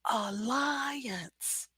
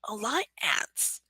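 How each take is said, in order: First: The middle vowels are joined smoothly with a glide. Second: The middle vowels are said separately, without a glide. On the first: The speaker calls it right. "the second syllable goes up" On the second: The speaker calls it wrong. "that's really hard to say"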